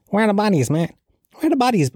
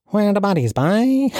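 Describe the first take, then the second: First: High-pitched mock-indignant demand; conspiracy theorist type. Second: High, sing-song mock Cork accent. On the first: Conspiracy type demanding the bodies, mock outrage. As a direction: mimic a worked-up conspiracy protester, voice pitched right up. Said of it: "one of these Gemma O'Doherty types". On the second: Mocking a protester from Cork, exaggerated Cork accent. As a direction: imitate a Cork man, pitched well up. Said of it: "I'll do a Cork accent".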